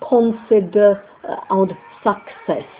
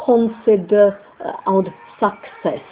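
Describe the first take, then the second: First: The stresses are weak and unstressed vowels unreduced. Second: The same.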